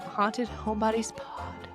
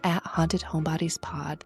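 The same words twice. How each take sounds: First: It is said in her normal voice. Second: It is said in a radio announcer voice.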